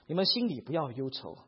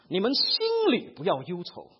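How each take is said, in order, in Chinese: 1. 这是用平实、普通的朗读语气读的。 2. 这是用字正腔圆、播音员式的语气读的。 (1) "他们会不会这样子读呢？……一般上不会的呢" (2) "好像在广告里面的人在讲话这样子……他们会这样子啊"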